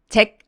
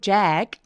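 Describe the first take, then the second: First: The vowel is short and flat. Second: The vowel is long and wide open. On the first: The speaker calls it wrong. "잭 아니고" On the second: The speaker calls it right. "모음 엄청 길죠? ... 더 길게 벌려주세요"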